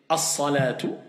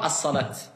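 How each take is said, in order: First: The word ends with a t and a final vowel. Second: The word ends with a t sound. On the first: The speaker calls it right. "soit je vais dire as-salatu" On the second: The speaker calls it wrong. "Et pas as-salat"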